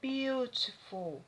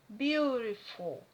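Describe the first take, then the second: First: The t is pronounced as a clear t. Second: The t sounds like a quick r. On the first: "O britânico ele pronuncia beautiful" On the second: "O americano ele vai pronunciar beautiful. ... o T aqui tem som de R"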